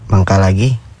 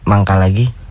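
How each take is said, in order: First: It is said in a sarcastic tone. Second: It is said as if in stomach pain.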